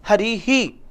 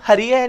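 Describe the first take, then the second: First: The visarga echoes the vowel as 'hee'. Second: The visarga is sounded as a 'hai' syllable. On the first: The speaker calls it right. "क्या बोलेंगे इसको, हरि ही" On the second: The speaker calls it wrong. "इसको हरि है नहीं कहेंगे"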